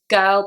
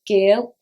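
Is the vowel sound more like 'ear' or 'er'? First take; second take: er; ear. First: The vowel is a flat er sound. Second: The vowel is an ear-like sound.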